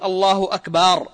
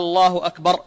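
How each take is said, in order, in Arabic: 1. الحركة بعد الباء في أكبر تُمدّ. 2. الحركة الأولى في الله تُمدّ كأنها سؤال. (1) "بمد الباء" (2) "يمد همزة الجلالة"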